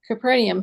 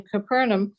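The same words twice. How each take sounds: First: "Capernaum" pronounced kuh-PER-nee-um; four-syllable Capernaum. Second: "Capernaum" pronounced kuh-PER-num; three-syllable Capernaum. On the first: Reader switching to the other accepted way, "Capernaum" as kuh-PER-nee-um. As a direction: put an ee before the last um of "Capernaum". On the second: Reader trying one of both accepted ways, "Capernaum" as kuh-PER-num. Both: Real, not acted. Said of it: "I've heard it pronounced both ways".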